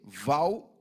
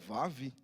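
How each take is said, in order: First: The word ends with an L sound. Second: The word ends with a V sound. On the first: The speaker calls it wrong. "O pastor se falou que não é Val" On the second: The speaker calls it right. "é Vav"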